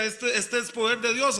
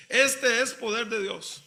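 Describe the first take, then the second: First: Said in the usual way. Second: Slow, drawn-out "este es poder de Dios"; slow emphatic repeat with "este" lengthened; emphatic quote. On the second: Retold or imitated. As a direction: stretch out "este" and give each word weight.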